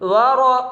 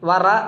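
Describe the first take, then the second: First: The r is heavy with an o-like vowel. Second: The r is light with a plain a vowel. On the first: The speaker calls it right. "റോ റോ എന്നാണ്" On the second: The speaker calls it wrong. "വറ എന്നല്ല"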